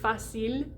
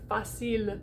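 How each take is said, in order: First: The voice stops right after the final L. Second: A faint vowel sound follows the final L. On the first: "where I stop vibrating as soon as the L is done" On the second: "It's like this little teeny shadow"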